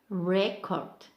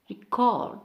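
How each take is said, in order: First: The stress is on the first syllable. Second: The stress is on the second syllable. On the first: It is used as a noun. "For noun we have record" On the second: It is used as a verb. "for verb we have record"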